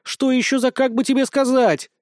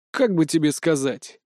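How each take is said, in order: First: High, mocking echo of "как бы тебе сказать"; indignant mock repeat. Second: Said in the usual way. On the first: Cat mocks the hero's hedge, high indignant echo. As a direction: throw his own words back at him, offended. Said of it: "возмутилась Уся".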